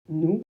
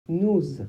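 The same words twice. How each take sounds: First: The word ends on its vowel with no z. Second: The word ends with a linking z sound. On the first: The next verb starts with a consonant. "sans la liaison" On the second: The next verb starts with a vowel or h. "avec la liaison"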